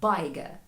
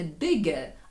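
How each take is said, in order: First: The first vowel is an 'eye' sound. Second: The first vowel is a short 'i' sound. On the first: The syllable has become open. The speaker calls it wrong. "а bigger. А нам цього не треба" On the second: The syllable stays closed. The speaker calls it right. "І слово читатиметься не bigger"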